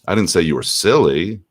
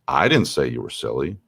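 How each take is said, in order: First: The stress is on "silly". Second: The stress is on "I".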